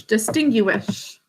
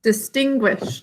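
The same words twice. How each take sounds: First: Distinguish said slowly, every syllable sounded out for spelling; spelling pronunciation. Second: Said in the usual way. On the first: Shown as a demonstration. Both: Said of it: "is the way we think to spell it".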